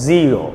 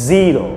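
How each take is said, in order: No difference in how they are said.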